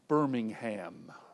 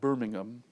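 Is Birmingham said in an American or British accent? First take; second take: American; British. First: It is said in an American accent. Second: It is said in a British accent.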